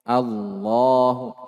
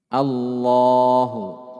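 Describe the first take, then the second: No difference in how they are said.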